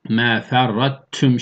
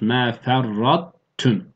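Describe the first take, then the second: First: The merged t sounds light and thin. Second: The merged t keeps a heavy, emphatic quality. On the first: The speaker calls it wrong. "Meferrattüm şeklinde ince değil" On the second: The speaker calls it right. "O istialasını belli edip ama tam bir tığ da değil"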